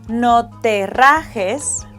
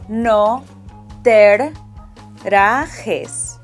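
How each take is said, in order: First: The r in rajes is a single sound. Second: A soft r is doubled with a tiny pause. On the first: "instead of saying" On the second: "double the soft R sound, making a tiny pause"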